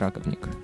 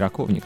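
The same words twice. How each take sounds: First: The stress falls on the first syllable. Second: The stress falls on a later syllable. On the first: The speaker calls it right. "он раковник; в чешском языке всегда ударение падает на первый слог" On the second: The speaker calls it wrong. "он не раковник на самом деле"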